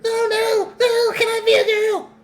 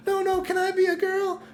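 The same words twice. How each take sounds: First: Very high and louder squealing plea; mocking Bridget. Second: Much higher squeaky mock plea; mocking Bridget. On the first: Streamer mocking Bridget begging society, shrill squeal. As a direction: squeal it like a desperate child. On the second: Streamer mocking Bridget's plea to society, squeaky high. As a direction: whine it like a pleading kid. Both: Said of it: "They're like".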